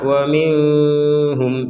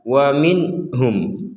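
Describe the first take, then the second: First: The n is obscured and barely heard. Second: The n is clear with no nasal hum. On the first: The speaker calls it wrong. "Kalau samar" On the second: The speaker calls it right. "Jadi jelas"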